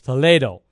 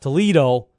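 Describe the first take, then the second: First: Toledo is said with a Spanish pronunciation. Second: Toledo is said with an American pronunciation. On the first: It names the city in Spain. The speaker calls it right. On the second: It names the city in Ohio. The speaker calls it wrong.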